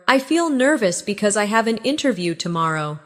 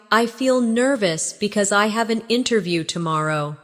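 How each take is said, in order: First: Said in the usual way. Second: Practice take. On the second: Shown as a demonstration. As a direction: give it a little more time for learners. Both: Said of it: "Practice these with me".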